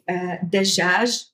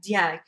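First: The middle consonant is a j sound. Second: The middle consonant is a y sound. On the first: "instead of saying dajaj in UAE" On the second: "It turns into a ya in Emirati"

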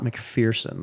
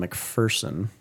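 First: The middle syllable sounds like the word 'fear'. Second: The middle syllable does not sound like 'fear'. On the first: The speaker calls it wrong. "not McPherson. There's no fear in McPherson" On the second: The speaker calls it right. "I was in a small town called McPherson"

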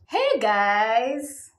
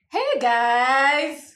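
First: It is said with low energy. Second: It is said with medium energy.

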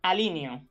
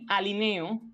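First: The stress falls on the vowel i. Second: The stress falls on the vowel e. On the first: The speaker calls it wrong. "Sería inadecuado decir alineo" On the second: The speaker calls it right. "la voz tónica es la E"

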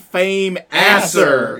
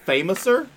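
First: It is split into 'fame' and 'asser'. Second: It is run together like 'famous' plus 'er'. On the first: The speaker later realized the name sounds this way. "I didn't know it was the fame asser" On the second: The speaker first heard the name this way. "they always pronounced it famouser"

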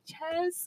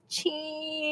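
First: The vowel is short, like in chess. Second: The vowel is long, like in cheese. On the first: The speaker calls it wrong. "she couldn't say cheese. ... She's like" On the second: The speaker calls it right. "And then they would take it"

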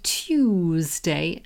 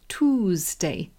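First: It is said with a British pronunciation. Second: It is said with an American pronunciation. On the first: "we say Tuesday" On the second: "they say Tuesday"

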